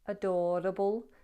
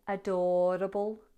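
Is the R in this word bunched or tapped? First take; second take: tapped; tapped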